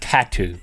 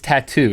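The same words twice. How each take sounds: First: The stress is on the first syllable. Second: The stress is on the second syllable. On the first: The speaker calls it wrong. "It's not tattoo. You got the emphasis tattoo is like on the a, wrong syllable" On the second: The speaker calls it right. "It's tattoo"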